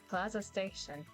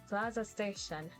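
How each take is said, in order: First: It is said in a put-on announcer voice. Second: The same.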